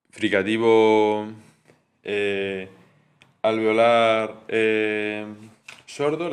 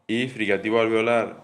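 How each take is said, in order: First: Slow dictation. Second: Said in the usual way. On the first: Shown as a demonstration. Teacher dictating the terms slowly to the class. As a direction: dictate each term slowly so students can note it. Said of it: "teacher spelling out terms". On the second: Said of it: "teacher repeats the terms".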